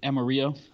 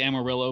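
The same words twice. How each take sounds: First: Amarillo is pronounced the Spanish way. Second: Amarillo is pronounced the usual English way. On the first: This is the name's original Spanish form. "is it technically Amarillo?" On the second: This is how locals commonly say the name. "we say Amarillo"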